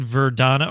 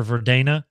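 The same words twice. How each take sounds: First: Verdana said "ver-DAH-nuh"; trying a pronunciation. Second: Verdana said "ver-DAY-nuh"; long AY in the middle of Verdana; alternative pronunciation. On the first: Streamer trying out a font name, Verdana with an AH. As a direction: open AH in the middle of Verdana. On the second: Streamer offering another reading of a font name, Verdana with an AY. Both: Shown as a demonstration. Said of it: "Let's go with that".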